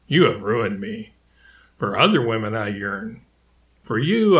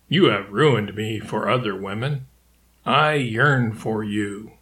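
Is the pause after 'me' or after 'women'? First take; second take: after me; after women. First: The pause comes after 'me', not after 'women'. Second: The pause comes after 'women', not after 'me'.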